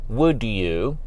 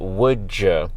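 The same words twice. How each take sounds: First: The d and y sounds stay separate. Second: The d and y blend into a j-like sound. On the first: "instead of saying" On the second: "in fast speech, undergoes what we call affrication ... it often becomes"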